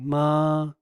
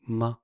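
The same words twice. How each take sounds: First: A full, high, level first tone. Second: A light, relaxed, incomplete tone. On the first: "like the first tone, ma" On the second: "you relax it and make it incomplete"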